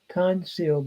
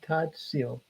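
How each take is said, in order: First: An n sound comes before the s. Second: A t sound comes before the s. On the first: This is the form before the sound change. "it would have been tan seal" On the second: This is the actual form after the sound change. "that noon has gone into the tzadi by progressive assimilation"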